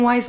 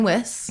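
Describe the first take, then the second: First: The vowel sounds like 'eye', rhyming with nice. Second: The vowel sounds like 'ih', rhyming with kiss. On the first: The speaker calls it wrong. "people have called me Susan Weiss my whole life" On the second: The speaker calls it right. "but it's actually [name]"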